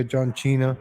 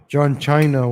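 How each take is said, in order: First: China said with an "ee", like "CHEE-nuh"; China as "Cheena". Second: China with a long "eye" vowel; China as "CHY-nuh". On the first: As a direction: rhyme the start of China with "she", as in Cena. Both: Shown as a demonstration. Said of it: "whatever he's called now".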